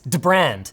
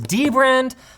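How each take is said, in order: First: The D runs straight into the rest. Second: The D is said as a separate letter. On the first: The speaker calls it right. "the D and the B are even joined together. It's Dbrand" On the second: The speaker calls it wrong. "I've been saying it wrong for years. I thought it was Dbrand"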